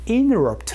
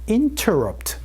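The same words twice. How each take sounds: First: The t after the n is dropped. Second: The t after the n is clearly pronounced.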